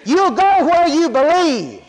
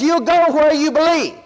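First: Drawn out and weighty, each word leaned on; slow it down and press every word; a preacher hammering the point home; slow emphatic preaching. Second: Said in the usual way. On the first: Acted. Preacher driving home his point.

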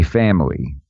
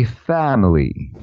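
First: Family, clipped to two syllables, fam-ly; the Brooklyn family, said fam-ly; our way of saying family. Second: Family, said in three syllables, fam-uh-ly; family spelled out slowly, fa-mi-ly; Philly way of saying family. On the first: Host showing cohost how Brooklyn says it, fam-ly. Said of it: "We say family". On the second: Host showing cohost the Philly way, fam-uh-ly. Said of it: "they say family". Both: Shown as a demonstration.

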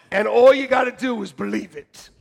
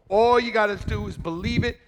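First: Loud, punching ALL; emphatic preacher shout. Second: Said in the usual way. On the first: Real, not acted. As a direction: preach it out to the room. Repeats line, first take shouted.

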